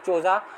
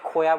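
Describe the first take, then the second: First: The second syllable begins with a j sound. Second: The second syllable begins with a y sound. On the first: The speaker calls it wrong. "C H O जे को काफ़ी लोग चोजा" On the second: The speaker calls it right. "ये correct pronunciation ... Japanese pronunciation में खोया बोलते होंगे"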